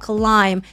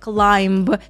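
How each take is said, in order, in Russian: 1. Слово заканчивается на m без звука b. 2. Слово заканчивается слышимым звуком b.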